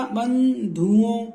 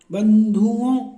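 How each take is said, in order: First: बंधुओं said slowly, the nasal ओं held; slow nasal demo. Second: बंधुओं slow and louder, syllables spaced; slow stressed demo. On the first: Teacher to students, stretching बंधुओं slowly. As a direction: draw out बंधुओं for the class. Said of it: "तो देखो बंधुओं में क्या बनेगा?". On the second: Teacher to students, sounding out बंधुओं firmly. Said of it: "धू बन गया". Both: Shown as a demonstration.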